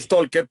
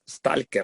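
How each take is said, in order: First: The a is said the English way. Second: The a is said as a plain open 'a'. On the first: "en inglés pues, le ponen Stalker, lo pronuncian Stalker" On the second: "la A se pronuncia A, tal cual"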